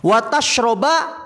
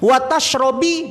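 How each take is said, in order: First: The verb ends with an a vowel. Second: The verb ends with an i vowel. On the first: Do not eat fish and drink milk together. "Wa tashroba beda maknanya" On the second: Do not eat fish and do not drink milk. "Wa tashrobi beda juga maknanya"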